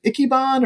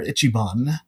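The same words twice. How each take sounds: First: "Ichiban" said with a hard K, "ICK-ee-bahn"; hard K pronunciation. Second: "Ichiban" said with a CH, "ITCH-ee-bahn"; soft CH pronunciation. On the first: Podcast guest unsure of the name, "Ichiban" with a K sound. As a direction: say "Ichiban" as "icky-bahn", K in place of CH. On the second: Podcast guest checking the name, "Ichiban" with a CH sound. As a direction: say "Ichiban" as "itchy-bahn", CH rather than K. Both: Shown as a demonstration. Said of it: "is it Ichiban or Ichiban?".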